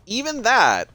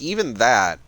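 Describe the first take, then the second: First: "even that" repeated much higher and louder, "that" punched; stress on that. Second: Said in the usual way. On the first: Shown as a demonstration. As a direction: hammer home "that" on a high, loud second try.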